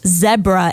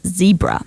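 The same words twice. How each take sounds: First: It is said with a British-influenced pronunciation. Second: It is said with a non-British pronunciation. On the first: The speaker grew up where British usage prevailed. "we pronounce Z as a Z. So it's zebra" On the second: The speaker did not grow up where British usage prevailed. "instead of zebra"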